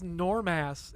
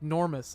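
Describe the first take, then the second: First: The word is said slowly and deliberately. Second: The word is said quickly and run together. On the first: The name seems to mean nothing. The speaker calls it wrong. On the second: The name sounds like the word enormous. The speaker calls it right.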